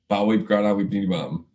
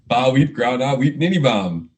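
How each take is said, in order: First: It is said at normal speed. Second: It is said more slowly.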